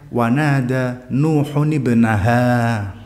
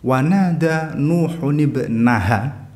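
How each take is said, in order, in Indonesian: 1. Vokal akhir dari ibnaha itu panjang. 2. Vokal akhir dari ibnaha itu pendek. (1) "hanya panjang" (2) "tapi hanya pendek"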